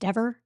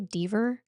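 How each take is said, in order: First: The first vowel is short, like 'eh'. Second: The first vowel is long, like 'ee'. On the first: This is the name's actual pronunciation. The speaker calls it right. "When it's Dever?" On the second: This is how someone else mispronounced the name. The speaker calls it wrong. "He's going to mispronounce her name. What does he say?"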